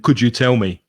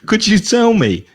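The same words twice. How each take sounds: First: The pitch stays flat, sounding less polite. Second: The pitch moves up and down, sounding polite. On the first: The question sounds less polite. The speaker calls it wrong. "if your intonation is flat, it's not going to sound so polite" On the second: The question sounds polite. The speaker calls it right. "is much more polite"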